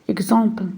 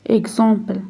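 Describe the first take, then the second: The two takes are said the same way.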